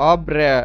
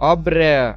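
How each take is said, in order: First: The vowel after r sounds like 'e'. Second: The same.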